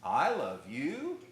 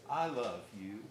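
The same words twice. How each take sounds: First: Slow, louder, mocking; sarcastic I love you. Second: Tender I love you. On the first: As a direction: drag it out with scorn. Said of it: "Same words, totally different meaning". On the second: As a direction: say it gently and lovingly. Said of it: "if you speak it with that tone of voice". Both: Shown as a demonstration.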